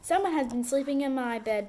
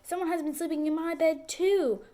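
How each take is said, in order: First: A deep, loud, bellowing Papa Bear voice. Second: A middle, crying Mama Bear voice.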